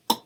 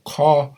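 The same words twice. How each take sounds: First: K popped far back in the throat; throaty ejective k, popped hard. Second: Said in the usual way. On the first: Shown as a demonstration. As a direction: pop the k from deep in the throat. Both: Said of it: "So ka and k".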